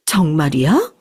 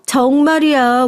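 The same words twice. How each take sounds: First: 정말이야 dipping low, then rising at the end; disbelieving question. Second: 정말이야 high and drawn out slowly; insistent assertion. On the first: Mother doubting the staff's claim, asks 정말이야 with rising disbelief. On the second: Staff insisting to the doubting mother, 정말이야 high and emphatic. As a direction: insist on 정말이야, stretched and pitched up. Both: Acted.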